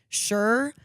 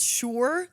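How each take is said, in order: First: The vowel does not rhyme with 'pure'. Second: The vowel rhymes with 'pure'. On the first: The speaker calls it wrong. "all of us would say sure" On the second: The speaker calls it right. "it's sure, like pure"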